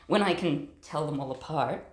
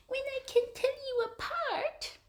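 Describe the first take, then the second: First: Said in the usual way. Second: Very high pet-talk coo. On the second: Real, not acted. Cat sitter telling a kitten about names, high baby talk. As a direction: say it sky-high, to a tiny animal.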